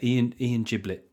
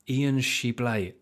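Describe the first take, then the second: First: The surname is given a plain English pronunciation. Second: The surname is given a French-style pronunciation. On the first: The name is treated as ordinary and homely. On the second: The name is treated as refined and foreign.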